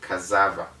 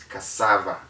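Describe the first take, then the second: First: The middle consonant is not a hissing S. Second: The middle consonant is a hissing S sound. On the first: The speaker calls it wrong. "not cassava" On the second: The speaker calls it right. "it is cassava"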